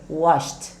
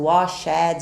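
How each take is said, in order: First: The ending is a plain T sound. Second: The ending is not a plain T sound. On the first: The speaker calls it right. "Vai ter um sonzinho de T também" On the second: The speaker calls it wrong. "mas não pronunciamos o washed"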